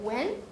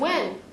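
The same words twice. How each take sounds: First: The pitch rises at the end. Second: The pitch falls at the end. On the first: The speaker did not catch the answer about when. "이렇게 올리게 되겠죠" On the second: The speaker is asking when the party is. "이렇게 내리면 돼"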